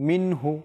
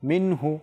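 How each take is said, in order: No difference in how they are said.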